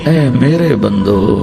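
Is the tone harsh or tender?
tender. It is said in a soft, loving tone. The speaker calls it right.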